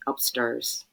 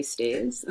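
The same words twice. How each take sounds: First: Attempted Irish "Upstairs", vowel turned to "sturs"; Northern Irish accent. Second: Said in the usual way. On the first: Mother imitating her son's word, Northern Irish accent. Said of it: "with an Irish accent". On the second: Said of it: "He doesn't say stairs".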